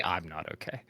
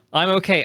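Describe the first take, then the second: First: Dropped low and soft; mock-emo hook, suddenly subdued; song hook imitation. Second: High, loud mock-emo outburst; song hook imitation. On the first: Player finishing My Chemical Romance's hook, low and subdued. Second half of quoted hook. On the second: Player quoting My Chemical Romance's hook, mock-emo and loud.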